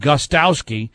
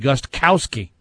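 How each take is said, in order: First: The name is said without a K sound. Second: The name is said with a K sound. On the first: "half the media calls him" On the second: "the other half say it phonetically"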